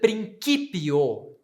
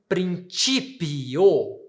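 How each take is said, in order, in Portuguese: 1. O c tem um som duro de k. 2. O c tem um som suave, parecido com ts. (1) "a mudança é de ti para ki na pronúncia reconstituída" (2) "eu pronuncio na pronúncia eclesiástica como ti"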